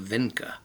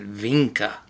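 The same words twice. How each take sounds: First: The name does not begin with a V sound. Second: The name begins with a V sound.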